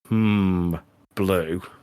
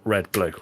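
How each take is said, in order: First: The answer comes slowly after a hesitation. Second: The answer comes quickly without any hesitation.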